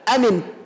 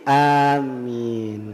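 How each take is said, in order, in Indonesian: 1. Bunyi m pendek dan tidak ditahan. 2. Bunyi a panjang dan m ditahan. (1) "Jadi tidak amin" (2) "jadi amin"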